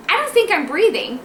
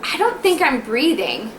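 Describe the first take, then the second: First: High-pitched mock alarm, retold; waking-up alarm. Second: Slow, drawn-out drowsy worry, retold; waking-up worry. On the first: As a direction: act out waking worried, voice pitched up. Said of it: "I'd wake up and I'd go". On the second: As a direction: act out groggily doubting your breathing. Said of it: "I kept waking up going".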